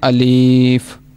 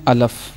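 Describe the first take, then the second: First: The second vowel is a long ee. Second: The second vowel is a short a. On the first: "कई पढ़ देते हैं अलीफ। ये दोनों तरीके गलत हैं।" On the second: "इसको बाज़ अहबाब पढ़ देते हैं अलफ"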